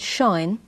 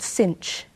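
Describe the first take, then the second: First: It sounds like shine, rhyming with fine. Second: It sounds like cinch, rhyming with pinch. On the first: "I'll call it shine" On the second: "some people who call it cinch"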